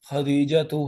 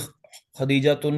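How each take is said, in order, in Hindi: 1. नाम एक साधारण स्वर पर खत्म होता है, 'न' नहीं। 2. नाम के अंत में एक अतिरिक्त 'न' की आवाज़ जुड़ी होती है। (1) "ये हमेशा लाइट होते हैं" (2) "आप इसमें कभी खदीजा तुन नहीं पढ़ेंगे"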